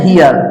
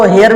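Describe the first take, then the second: First: Hear said as "hiyar"; "hiyar", the correct form of hear; correct pronunciation of hear. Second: Hear said as "heyar"; "heyar" variant of hear; alternative pronunciation of hear. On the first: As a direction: give hear a long "ee" glide, hiyar. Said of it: "इसका जो सही उच्चारण है". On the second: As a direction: give hear an "e" vowel, heyar. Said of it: "इसको हेयर भी पढ़ते हैं". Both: Shown as a demonstration.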